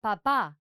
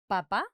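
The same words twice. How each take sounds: First: "papá" with the weight on the final "pá"; stress on last syllable. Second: "papa" with the weight on the first "pa"; stress on first syllable. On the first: Teacher showing the word for dad, "papá" stressed on the last syllable. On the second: Teacher showing the word for potato, "papa" stressed on the first syllable. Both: Shown as a demonstration. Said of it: "if we pronounce like that".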